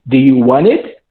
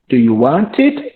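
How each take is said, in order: First: The words want and it are joined together. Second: The words want and it are said separately. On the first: The speaker calls it right. "You are going to join the verb plus the it" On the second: The speaker calls it wrong.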